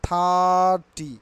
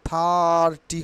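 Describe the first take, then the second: Both takes have the same delivery.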